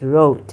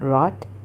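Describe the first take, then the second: First: The vowel is long, like in 'rote'. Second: The vowel is short, like in 'rot'. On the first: The speaker calls it right. "It's wrote" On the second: The speaker calls it wrong. "not rot"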